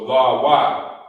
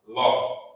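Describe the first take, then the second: First: The sounds are split into two separate syllables. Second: The sounds are joined into a single syllable. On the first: The speaker calls it wrong. "But you can't say la wa" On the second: The speaker calls it right. "You would say it like that"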